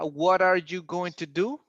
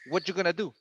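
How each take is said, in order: First: Every word is fully pronounced, including going to. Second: Are is dropped and going to becomes gonna.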